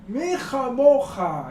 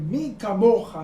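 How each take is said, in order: First: The second word has a throaty h sound. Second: The second word has a hard k sound. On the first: The speaker's mouth was full of water. The speaker calls it wrong. "no pudo decir bien mi camoja y dijo mi jamoja con las aguas en la boca" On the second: The speaker could finally speak clearly. The speaker calls it right. "pudo decir la frase correctamente"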